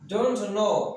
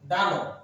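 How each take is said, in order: First: Both words are said fully and separately. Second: The words are blended into one short word.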